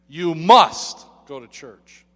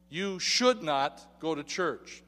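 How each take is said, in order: First: "must" punched out loud; "You must go to church" with a loud, forceful MUST; stress on MUST. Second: "should" leaned on, slow and measured; "You should not go to church" slow, hitting should; stress on SHOULD. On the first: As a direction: thunder the word "must". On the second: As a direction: weigh the word "should". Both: Shown as a demonstration. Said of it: "listen carefully to this statement".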